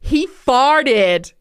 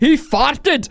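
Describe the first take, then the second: First: It is said in an American accent. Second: It is said in a Scottish accent. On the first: "the purely American" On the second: "Or if you're Scottish"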